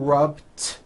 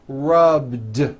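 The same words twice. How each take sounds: First: The word ends in a voiceless T sound. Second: The word ends in a voiced D sound. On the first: The speaker calls it wrong. "It's not rubbed with an unvoiced T" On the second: The speaker calls it right. "It's rubbed, like"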